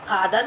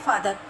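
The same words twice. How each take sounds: First: "फादर" with aspirated ph, lips meeting; wrong aspirated PH. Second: "फादर" with f, lip on teeth; correct F sound. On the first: Teacher showing the mistake, "फादर" with ph as in फल. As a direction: pop the lips to open "फादर". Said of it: "फादर नहीं बोलेंगे". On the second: Teacher giving children the word for पिताजी, "फादर" with f. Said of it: "पिताजी के लिए बोलते हैं". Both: Shown as a demonstration.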